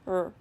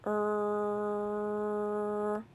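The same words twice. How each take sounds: First: The sound is said quickly and briefly. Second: The sound is stretched out slowly. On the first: "Say it fast" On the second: "We're going to say a sound slowly"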